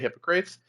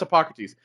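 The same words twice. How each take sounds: First: The name is pronounced in a comic film style. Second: The name is pronounced in the standard way. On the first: It is a habit picked up from a film. The speaker calls it wrong. "I watch Bill and Ted too much, so I always say Hippocrates" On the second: This is the accepted pronunciation. The speaker calls it right. "but I know it's Hippocrates"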